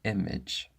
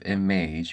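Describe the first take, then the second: First: The final vowel is a short E/I. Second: The final vowel is a long A.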